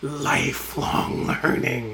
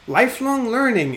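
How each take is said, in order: First: It is said in a seething, contemptuous tone. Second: It is said in a plain, neutral tone. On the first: The speaker calls it right. "you could feel it seething" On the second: The speaker calls it wrong. "I don't think I have the right intonation"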